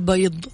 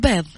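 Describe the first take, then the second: First: It is pronounced in formal Standard Arabic style. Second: It is pronounced in colloquial dialect style. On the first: The speaker calls it wrong. "ما نقول" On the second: The speaker calls it right. "نقول"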